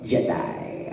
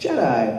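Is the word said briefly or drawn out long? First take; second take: drawn out; briefly. First: The word is stretched out long and menacing. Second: The word is said plainly and briefly. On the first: "I said it really long, like the Emperor would say it" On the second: "it was just like"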